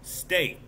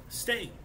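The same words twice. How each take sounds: First: Said in the usual way. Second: Steak repeated much higher and softer, falling; emphatic repeat. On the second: Shown as a demonstration. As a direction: hit steak again high, insisting.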